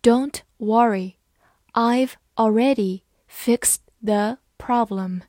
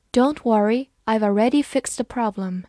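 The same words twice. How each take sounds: First: Word by word with clear pauses; deliberate, evenly spaced teaching pace; slow reading. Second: Said in the usual way. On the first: Shown as a demonstration. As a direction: read it out slowly for learners. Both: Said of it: "好，慢慢来读".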